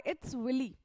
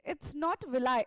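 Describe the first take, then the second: First: Half-mocking a student, "willy" with a rounded w; quoting a student. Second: "villi" said vi-lee with a v; light mock of a student's comment, "villi" as vi-lee; quoting a student. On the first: Teacher retelling a student's correction, "willy" as wi-lee. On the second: Teacher retelling a student's YouTube comment, "villi" as vi-lee. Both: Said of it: "एक बच्चे का उस पे comment आया".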